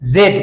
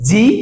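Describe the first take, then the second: First: The letter name is said as zed. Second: The letter name is said as zee. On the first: "আর একটা আছে জেড" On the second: "একটা হচ্ছে জি"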